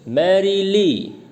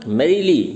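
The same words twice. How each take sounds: First: merrily slowly drawn out, मै heaviest; stress on first syllable. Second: merrily said compactly and louder, मै leading; stress on first syllable. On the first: Teacher models merrily slowly for class, first syllable stressed. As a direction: stretch it syllable by syllable as मै-री-ली. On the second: Teacher gives dactyl example merrily, first syllable stressed. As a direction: punch मै, then री and ली quickly. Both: Shown as a demonstration. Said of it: "मैं पे stress देना है".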